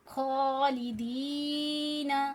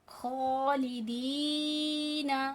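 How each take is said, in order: The two takes are said the same way.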